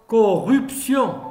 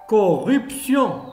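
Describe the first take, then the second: Both takes have the same delivery.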